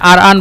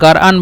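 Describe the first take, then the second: First: The word starts with a glottal stop. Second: The word starts with a throaty gh sound. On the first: "হামজা বলে, মানে আর আন বলে" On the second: "অথবা গার আন বলে"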